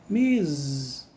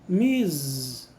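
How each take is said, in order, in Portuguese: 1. A palavra Ms termina com som de z. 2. A palavra Ms termina com som de z.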